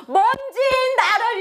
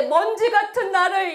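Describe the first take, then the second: First: High, drawn-out emphasis on 먼지인; stress on 먼지인. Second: Said in the usual way. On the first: Shown as a demonstration. Pastor showing how to pray, stressing 먼지인. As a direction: stretch 먼지인 slowly and pitch it high. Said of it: "이렇게 기도하셔야 돼요". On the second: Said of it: "이렇게 한번 기도하시면 안 되고".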